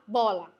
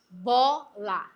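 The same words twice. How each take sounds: First: The word is said quickly and run together. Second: The word is said slowly and separately. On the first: "Eu vou aumentando a forma mais rápida de falar" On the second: "Eu vou aumentando a forma mais rápida de falar"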